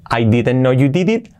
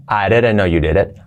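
First: "didn't" and "did it" with Spanish i; spelled-out pronunciation. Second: "areren no you deret", lower; linked native pronunciation. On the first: Teacher contrasts with linked take, spelled-out pronunciation. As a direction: keep hard d's in "didn't" and "did it". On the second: Teacher models así sería, linked pronunciation. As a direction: soften d's to r and open i to e. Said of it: "Las Ds como R suave". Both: Shown as a demonstration.

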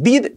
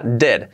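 First: "did" with a tight ee vowel; a pure Spanish i in "did"; wrong Spanish-style vowel. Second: "did" with the i close to e; corrected vowel. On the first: Teacher quoting the old mistake, tight-i "did". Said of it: "Ya no diréis did". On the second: Teacher giving the fix, "did" almost "ded". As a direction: open "did" towards "ded". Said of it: "será did". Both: Shown as a demonstration.

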